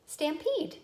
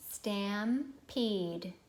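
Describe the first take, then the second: First: "Stampede" in one go, higher-pitched; brisk blended word. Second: "Stampede" slow, split into stam and peed; syllable by syllable. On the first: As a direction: say "Stampede" quickly and high, syllables joined. Blended word after slow take. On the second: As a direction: stretch "Stampede" with a pause in the middle. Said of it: "Ready to check?". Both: Shown as a demonstration.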